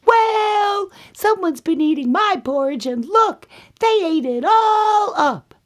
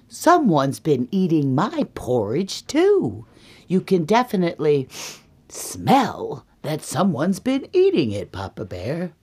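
First: Very high, loud little-bear squeal; upset Baby Bear. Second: Emphatic, swooping complaint; indignant Mama Bear. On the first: Baby Bear finds his bowl empty, high outraged squeal. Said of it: "And then Baby Bear says". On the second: Mama Bear tells Papa about her porridge, indignant. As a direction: swoop up on the key words, affronted. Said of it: "And then Mama Bear goes". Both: Acted.

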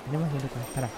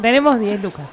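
First: Low, very quiet aside; hushed. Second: Said in the usual way. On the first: Acted. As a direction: drop right down so the seller can't hear. (en voz muy baja, disimulando) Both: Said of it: "No lo digas muy fuerte".

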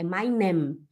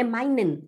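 First: Meinem ending on a held m; final M. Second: Meinen ending on an n; final N. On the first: Teacher correcting, meinem ending in hummed m. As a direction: lower "meinem", lips closed at the end. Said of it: "é meinem". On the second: Teacher repeating the mistake, meinen closed with n. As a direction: finish "meinen" with tongue-tip n. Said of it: "Não é meinen". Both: Shown as a demonstration.

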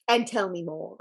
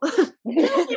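First: Said in the usual way. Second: Laughing through the words, higher; laughing plea. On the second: Real, not acted. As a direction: beg for more between giggles.

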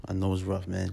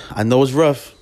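First: Dropping to near a murmur; quiet. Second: Louder, pressing the point; emphatic. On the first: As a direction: let it fall away softly. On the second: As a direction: say it firmly and loud. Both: Real, not acted. Repeats the line, then fades it.

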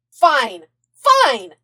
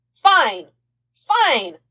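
First: Loud, clipped agreement; loud snapping. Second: Loud, hurried yes; eager agreement. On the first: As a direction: bark it back impatiently. Zuko answering back. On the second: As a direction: blurt it out excitedly. Aang agreeing in a rush. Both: A narrator's reading.

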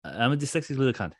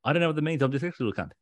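First: Slurred into one breath, a bit high; mock Will Ospreay mumbling it as one word; run together as one word. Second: Again mashed into one breath, slightly raised; imitating Ospreay's one-breath ramble; run together as one word. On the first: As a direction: rush it all out as a single word. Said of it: "He said it like that". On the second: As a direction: gabble it like one long word. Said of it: "That's how he said it". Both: Shown as a demonstration.

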